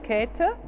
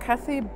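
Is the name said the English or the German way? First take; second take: German; English. First: The name is said with a German pronunciation. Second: The name is said with an English pronunciation. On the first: "but the German pronunciation is Käthe" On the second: "or Kathy Buchler"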